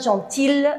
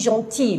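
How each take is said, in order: First: The word ends with a clear L sound. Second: The word ends with a Y-like sound. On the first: The speaker calls it wrong. "je ne prononce pas gentille" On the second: The speaker calls it right. "je dis gentil. Le son I"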